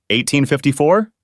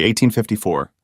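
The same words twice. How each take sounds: First: "Eighteen fifty-four?" as a mildly shocked question rising at the end; a touch of shock, rising on "fifty-four". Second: Said in the usual way. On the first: A narrator's reading. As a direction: repeat "Eighteen fifty-four?" in light disbelief.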